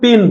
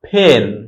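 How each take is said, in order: First: The first consonant has no puff of air. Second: The first consonant has a strong puff of air. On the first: The speaker calls it wrong. "এটা কিন্তু আমরা পেন বলবো না" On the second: The speaker calls it right. "যেমন হচ্ছে ফেন"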